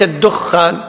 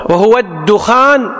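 First: الدخان said "ad-dukhkhān", with a held kh; wrong doubled khā. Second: الدخان said slowly as "ad-dukhān", single kh; light khā. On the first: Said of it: "وليس الدخان". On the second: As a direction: keep the khā short in الدخان. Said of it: "بتخفيف الخاء". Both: Shown as a demonstration.

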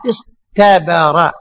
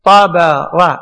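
First: Slow, drawn out. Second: Said in the usual way. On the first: Shown as a demonstration. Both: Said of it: "أصل الطاء هذه تاء".

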